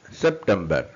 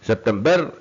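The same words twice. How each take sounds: First: September with BER left unstressed; correct stress. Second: September with BER punched; wrong final stress. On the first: Teacher corrects the word for learners, last syllable unstressed. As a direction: let the end of September fall away lower. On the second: Teacher shows learners the wrong stress, BER stressed. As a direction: lean hard on the last syllable of September. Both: Shown as a demonstration. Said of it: "September இல்ல".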